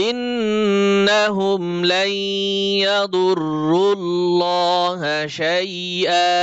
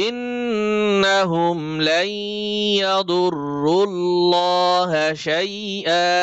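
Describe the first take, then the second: Both takes have the same delivery.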